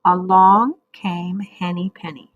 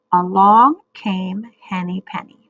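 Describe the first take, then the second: First: Choral reading with class. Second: Choral reading model. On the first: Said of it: "now you say it with me". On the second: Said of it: "We'll do it two times". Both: Shown as a demonstration.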